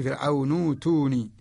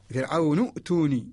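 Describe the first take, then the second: First: فرعون ائتوني with hamza turned into a long oo; Warsh reading. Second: فرعون ائتوني with a glottal stop closing نو before توني; original form with hamza. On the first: Teacher demonstrating Warsh recitation, فرعون ائتوني with long oo replacing hamza. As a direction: glide from نو to توني on a held oo, no glottal stop. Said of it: "إذا قرأنا بورش". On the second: Teacher showing the original form, فرعون ائتوني with the hamza sounded. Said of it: "الأصل". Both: Shown as a demonstration.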